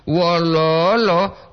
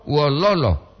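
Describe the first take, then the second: First: "Wololo" stretched long and slow, pitch raised; drawn-out wololo. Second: Said in the usual way. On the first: Shown as a demonstration. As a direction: draw out every syllable of "Wololo". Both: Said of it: "Beda kan?".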